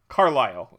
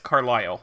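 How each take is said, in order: First: The stress is on the first syllable. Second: The stress is on the second syllable. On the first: This is the proper pronunciation of the actor's name. "Emphasis on the first syllable" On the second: This is how the name is said locally in Pennsylvania. "Emphasis on the second syllable"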